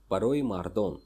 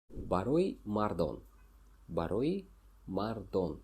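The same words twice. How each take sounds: First: Said in the usual way. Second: Барои мардон said slowly, each syllable clear; slow repeat. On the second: Shown as a demonstration. Teacher to students, repeating the phrase slowly. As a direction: spell it out slowly for the learner. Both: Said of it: "teacher repeats phrase for learners".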